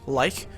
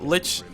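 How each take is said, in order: First: The word ends with a k sound. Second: The word ends with a ch sound. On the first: "the alternate pronunciation for the way you spell the name Lich is also like" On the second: "in Dota, you pronounce it Lich"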